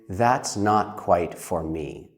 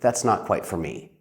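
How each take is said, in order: First: It is spoken at a slower, careful pace. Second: It is spoken at a faster, quicker pace.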